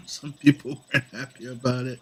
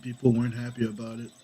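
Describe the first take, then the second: First: A small laugh leading into "Some"; chuckle, then qualify it with "Some"; amused correction. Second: Said in the usual way. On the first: Real, not acted. Laughs, amends own remark with "Some.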